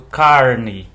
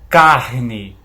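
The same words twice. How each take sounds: First: The R is curled back, retroflex. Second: The R vibrates in the throat. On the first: "como a gente chama de R retroflexo" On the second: "Observa como a garganta vibra"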